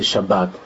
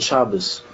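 First: The word ends with a t sound. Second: The word ends with an s sound. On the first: This is the modern Israeli-style pronunciation. The speaker calls it wrong. "They didn't say Shabbat" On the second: The speaker calls it right. "Our grandparents said Shavuos and Sukkos. They said Good Shabbos"

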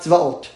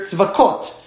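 First: No consonant comes before the final syllable. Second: A k sound comes before the final syllable. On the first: The sacred name is said as it is. "and not tzvaot" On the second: The sacred name is avoided outside of reading scripture. "I would say here tzvakot"

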